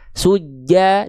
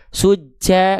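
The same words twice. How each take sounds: First: The j sound is pressed without any breath puffs. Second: The j sound bursts out with puffs of breath. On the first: The speaker calls it right. "dari tengah lidah nempel ke langit-langit makhrajnya" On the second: The speaker calls it wrong. "jangan keluar percikan-percikan nafas. Suja enggak"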